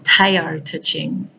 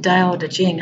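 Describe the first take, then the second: First: It begins with a T sound. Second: It begins with a D sound. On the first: "So T A O T E and then T I N G" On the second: "D A O D E J I N G"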